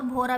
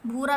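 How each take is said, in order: First: भोरा with a long 'oh' after bh; vowel of 'go' in भोरा; ओ reading. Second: भूरा with a long 'oo' after bh; vowel of 'food' in भूरा; ऊ reading. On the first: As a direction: say 'bhoh-raa' for भोरा. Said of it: "भोरा भी पढ़ सकते हैं". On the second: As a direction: say 'bhoo-raa' for भूरा. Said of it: "भूरा भी पढ़ सकते हैं". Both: Shown as a demonstration.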